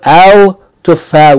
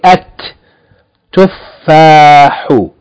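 First: The L of the article is pronounced. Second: The L becomes a doubled T sound. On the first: The speaker calls it wrong. "instead of al tuffah" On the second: The speaker calls it right. "we say at tuffahu"

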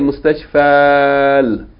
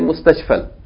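First: The vowel before the l is held long. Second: The vowel before the l is cut short. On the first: The speaker calls it wrong. "we don't say" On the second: The speaker calls it right. "but we say"

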